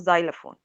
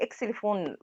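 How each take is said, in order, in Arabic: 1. تُنطق الكلمة بالطريقة الإنجليزية. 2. تُنطق الكلمة بالطريقة العربية. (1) "بس هو في الإنجليش اسمه زايلافون" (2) "احنا بنقول عليه إكسليفون بالعربي"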